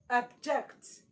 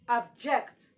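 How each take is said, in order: The two takes are said the same way.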